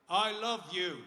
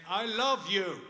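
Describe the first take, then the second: First: Louder, higher, for a hard-of-hearing dad; raised voice. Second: Full high shout to be heard; shouted repeat. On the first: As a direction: project it to someone hard of hearing. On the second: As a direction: shout it to a hard-of-hearing father. Hard of hearing. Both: Retold or imitated.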